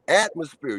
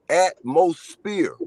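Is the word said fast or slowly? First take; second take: fast; slowly. First: The word is said quickly in one run. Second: The word is said slowly, parts drawn out.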